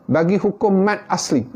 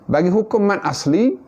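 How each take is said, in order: Both takes have the same delivery.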